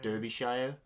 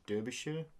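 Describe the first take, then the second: First: The shire ending is said the plain way. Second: The shire ending is said like British place names.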